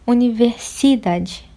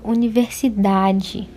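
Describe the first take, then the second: First: The stress falls on the syllable si. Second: The stress falls on the syllable da. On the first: The speaker calls it wrong. "não é universidade. Então não pode ser o si" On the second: The speaker calls it right. "Eu falo universidade... Então qual é a mais forte? Da"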